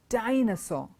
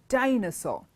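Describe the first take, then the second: The two takes are said the same way.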